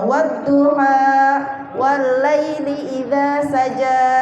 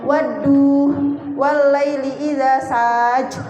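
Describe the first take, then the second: First: The final vowels of the words are pronounced. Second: The final vowels of the words are cut off. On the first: The speaker calls it right. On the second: The speaker calls it wrong.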